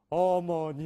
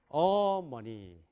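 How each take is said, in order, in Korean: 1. 모든 음절을 고르게 강세를 주어 발음해요. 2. 한 음절에 강한 강세가 있어요. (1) "한국 사람은 뭐예요? 어머니 이렇게 되잖아요" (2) "미국 사람들에게는 세 가지 말밖에 없어요"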